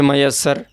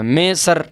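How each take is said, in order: First: The doubled y glides smoothly into the next syllable. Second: The word is broken into two separate chunks. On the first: The speaker calls it right. "जैसे मयस्सर" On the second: The speaker calls it wrong. "ऐसे नहीं पढ़ें"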